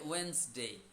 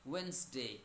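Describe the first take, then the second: First: It is said quickly with two syllables. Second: The same.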